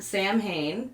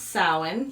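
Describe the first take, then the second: First: The word is said as it is spelled. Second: The word is said the Irish way. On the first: The speaker calls it wrong. "not Samhain, despite what the Winchester brothers taught us" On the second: The speaker calls it right. "it is pronounced Samhain"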